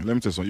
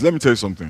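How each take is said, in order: First: Softer repeat. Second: Said in the usual way. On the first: Shown as a demonstration. Pastor leans in to the congregation, softer repeat. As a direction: drop the voice for the repeat, confidingly.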